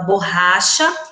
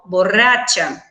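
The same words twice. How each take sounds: First: The ch is soft and the r barely trills. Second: The ch sounds like tch and the r trills. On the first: It means an eraser or rubber. "Em português, a gente fala borracha" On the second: It means drunk, as a feminine word. "em espanhol, borracha"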